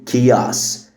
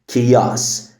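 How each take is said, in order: No difference in how they are said.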